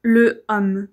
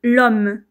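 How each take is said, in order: First: The vowel of le is pronounced separately. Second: The vowel of le is dropped and linked. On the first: The speaker calls it wrong. "et pas" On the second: The speaker calls it right. "pareil pour"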